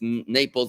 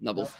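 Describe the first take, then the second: First: The middle consonant is a P sound. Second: The middle consonant is a B sound. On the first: "really it's Naples" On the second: "they can't say that a P, so they say B"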